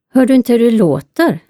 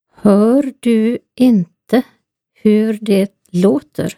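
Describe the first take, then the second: First: The sentence is spoken fast. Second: The sentence is spoken slowly.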